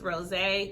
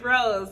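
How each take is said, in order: First: It ends on an 'ay' vowel sound. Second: It ends on a plain 'z' sound. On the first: The speaker calls it right. "We telling you it's rosé" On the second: The speaker calls it wrong. "I didn't heard of this Rosecrans rose"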